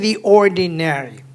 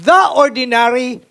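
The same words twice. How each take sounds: First: 'The' is said with a long 'ee' vowel. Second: 'The' is said with a short, weak vowel. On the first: The speaker calls it right. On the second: The speaker calls it wrong.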